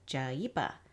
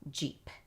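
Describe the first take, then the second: First: The consonants carry extra vowel sounds after them. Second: The consonants are clean, with no added vowels. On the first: The speaker calls it wrong. "You don't want to say ja and pa, because then you'll end up with an extra sound" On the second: The speaker calls it right. "make sure you're using nice, clean consonant sounds"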